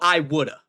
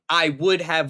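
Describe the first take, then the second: First: Would have is merged into one word. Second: Would have is said as two full words. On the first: The speaker calls it wrong. "he goes, well, I woulda" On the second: The speaker calls it right. "instead of saying"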